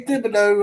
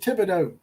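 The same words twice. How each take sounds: First: The name begins with a 'th' sound. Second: The name begins with a plain 't' sound. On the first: The speaker calls it wrong. "I didn't say Thibodeau" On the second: The speaker calls it right. "I said it right this time"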